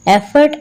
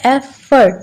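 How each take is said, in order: First: Said in the usual way. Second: "एफर्ट" in two beats, एफ, then फर्ट; split into syllables. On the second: Shown as a demonstration. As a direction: show both syllables of "एफर्ट" with a gap. ("एफर्ट" को दो हिस्सों में तोड़कर: एफ - फर्ट) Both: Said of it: "टू syllables हैं".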